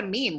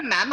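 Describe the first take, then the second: First: "meme" said as "meem", with a long ee; long-E pronunciation. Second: "meme" said as "mam", with a short open vowel; imitated "mem" pronunciation. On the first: Shown as a demonstration. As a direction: say "meme" to rhyme with "team". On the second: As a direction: say "meme" to rhyme with "ham". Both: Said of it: "I call it a meme".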